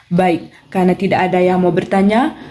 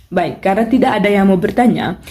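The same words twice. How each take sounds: The two takes are said the same way.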